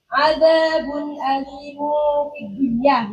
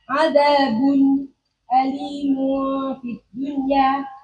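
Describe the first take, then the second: First: The words run on without any break. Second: A short pause comes after the first word.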